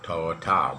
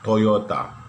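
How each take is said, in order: First: It is said with a hard English-style sound. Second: It is said with a soft Japanese-style sound. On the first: The speaker calls it wrong. "not not Toyota" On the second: The speaker calls it right. "but Toyota"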